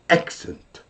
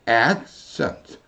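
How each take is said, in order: First: The force drops hard and never rises again. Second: The voice comes down and rises back up. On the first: The speaker calls it wrong. "한국식은 액센트, 영원히 그냥 땅바닥에 팍 꽂혀서 안 올라옵니다" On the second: The speaker calls it right. "영어는 accent, ... 이렇게 됩니다"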